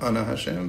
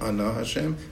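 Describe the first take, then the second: First: The stress in Ana is on the first syllable. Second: The stress in Ana is on the last syllable. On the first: The speaker calls it wrong. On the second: The speaker calls it right. "it's Milra"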